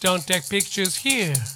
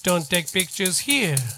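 The two takes are said the same way.

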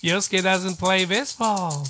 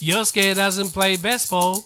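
Both takes have the same delivery.

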